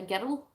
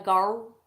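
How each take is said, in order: First: Put-on "girl" as "gerrul", nearly two syllables; Scottish "girl", sounded "gerrel"; Scottish pronunciation. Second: Put-on "girl" as one smooth syllable, "gurl"; "girl" with a plain rounded vowel; non-Scottish pronunciation. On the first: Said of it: "I say that Tomb Raider girl". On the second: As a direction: say "girl" without the Scottish rolled r. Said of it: "Instead of that Tomb Raider girl". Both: Shown as a demonstration.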